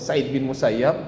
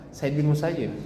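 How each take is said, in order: First: The surname ends with an 'ab' sound. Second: The surname ends with an 'ib' sound. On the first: "Ini pertama Sa'id bin Musayyab" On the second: "ada yang membaca Sa'id bin Musayyib"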